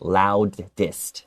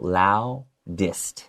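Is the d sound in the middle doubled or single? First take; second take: doubled; single. First: Two separate d sounds are pronounced. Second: One d sound joins the final syllable. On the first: The speaker calls it wrong. "They might want to do two different D sounds" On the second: The speaker calls it right. "the D actually comes in with the dist part. So you just go"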